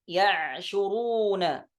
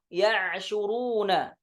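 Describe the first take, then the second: Both takes have the same delivery.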